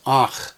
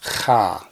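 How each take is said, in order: First: "ach" with ah first, then throaty ch; ah leading into the guttural in "ach"; vowel before consonant. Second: "cha" starting on a throaty ch, then ah; rasped ch released into ah in "cha"; consonant before vowel. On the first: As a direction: say "ach" ending on the rasped ch. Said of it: "the combination is pronounced ach". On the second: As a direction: say "cha" opening with the guttural. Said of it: "not cha". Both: Shown as a demonstration.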